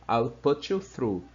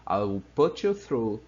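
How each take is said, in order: Both takes have the same delivery.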